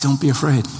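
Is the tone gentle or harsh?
gentle. It is said in a warm, reassuring tone. It is loving comfort. The speaker calls it right. "hear it the way that I believe Jesus said it. Guys"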